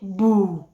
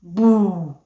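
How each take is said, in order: No difference in how they are said.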